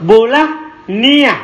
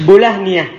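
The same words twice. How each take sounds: First: "Bulah niyah" drawn out slowly, vowels stretched; slow pronunciation drill of "Bulah niyah"; slow, careful model. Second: Said in the usual way. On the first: Shown as a demonstration. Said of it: "dhamma, fathah". ("Bulah niyah" diucapkan pelan sekali untuk dilatih) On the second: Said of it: "Bahasa Arabnya apa?".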